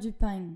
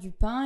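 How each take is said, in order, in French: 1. Ça se termine par un g ajouté. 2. Ça se termine par une voyelle nasale simple. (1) "ils vont dire du pain. Je ne fais pas très bien l'accent" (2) "au lieu de dire"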